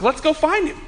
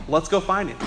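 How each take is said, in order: First: "Let's go find him" pitched higher, insisting; insistent repeat. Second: Low, softer, offhand retold line; low-key suggestion. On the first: Retold or imitated. Repeats it after "What?. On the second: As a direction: suggest it quietly, almost under your breath. Retold suggestion, first take.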